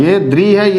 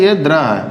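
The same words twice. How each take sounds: First: द्री with a clear "ee" vowel; dri sound. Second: द्र with an open "a" vowel; wrong dra sound. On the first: Teacher contrasts two syllables for students, dri. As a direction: lean on the ee of द्री. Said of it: "क्योंकि ये री". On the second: Teacher names the mistaken syllable, dra. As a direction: say द्र as dra, not dri. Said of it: "ये गलती है". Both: Shown as a demonstration.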